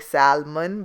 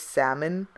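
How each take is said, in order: First: The L sound is pronounced in the word. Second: The L sound is silent in the word. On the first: The speaker calls it wrong. "I used to always say salmon because it's S A L M O N" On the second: The speaker calls it right. "The L's like silent"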